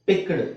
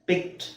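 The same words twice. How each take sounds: First: The word ends with a voiced d sound. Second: The word ends with a voiceless t sound. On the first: The speaker calls it wrong. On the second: The speaker calls it right.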